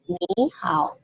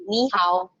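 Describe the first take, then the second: First: "ni" dipped low and slow in "ni hao"; wrong tone demo. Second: "ni" rising in "ni hao"; right tone demo. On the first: Teacher shows the wrong version. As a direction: drag "ni" down in a full third tone. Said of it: "Bukan lagi ni hao". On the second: Teacher models correct sandhi. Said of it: "Jadi, ni hao". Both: Shown as a demonstration.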